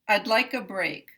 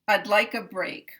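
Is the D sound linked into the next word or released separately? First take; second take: linked; linked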